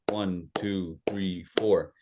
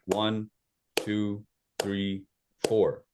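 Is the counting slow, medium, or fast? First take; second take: fast; slow. First: It is counted at a fast pace. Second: It is counted at a slow pace.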